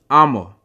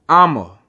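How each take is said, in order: The two takes are said the same way.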